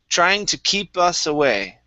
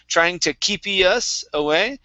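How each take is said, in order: First: Keep ends cleanly on p with no vowel. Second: An extra vowel sound follows the p in keep. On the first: The speaker calls it right. "instead of keepy, it's keep" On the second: The speaker calls it wrong. "you added an extra sound after P"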